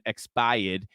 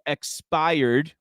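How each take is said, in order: First: It is said in a Boston accent. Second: It is said in a general American accent.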